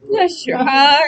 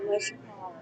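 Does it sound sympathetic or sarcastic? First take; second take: sarcastic; sympathetic. First: It sounds mocking and disbelieving. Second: It sounds sincere and sympathetic.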